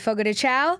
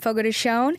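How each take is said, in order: First: The name is said with an English-style pronunciation. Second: The name is said with a Brazilian Portuguese pronunciation. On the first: Listeners recognize the restaurant. "oh yeah, that's such a great Brazilian restaurant" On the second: Listeners do not recognize the restaurant. "they have no idea"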